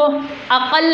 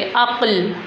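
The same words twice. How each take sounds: First: अक़ल in two syllables, "a-qal"; wrong split reading. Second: अक़ल as "aql", one syllable with a still क़; correct joined reading. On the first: Teacher shows what not to say, अक़ल with extra vowel. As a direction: put an "a" between क़ and ल in अक़ल. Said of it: "तो हम इसको अक़ल नहीं बोलेंगे". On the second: Teacher models the joined word for class, अक़ल as "aql". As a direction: run क़ straight into ल in अक़ल, no vowel. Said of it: "आइन की आवाज़ के साथ बिल्कुल मिलाकर". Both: Shown as a demonstration.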